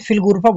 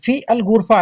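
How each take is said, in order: First: The article is merged into the preceding word. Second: The article is said as a separate syllable. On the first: This is how people say it in speech. "लेकिन फिल गुरफा बोल देते हैं बोलने में" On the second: This is the full written form. "फी अल गुरफा है"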